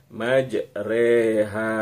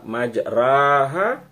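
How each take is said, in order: First: The vowel after r sounds like e. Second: The vowel after r sounds like a. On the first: "memiringkan bunyi fathah ke arah kasrah" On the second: "berarti ra-nya fathah ya"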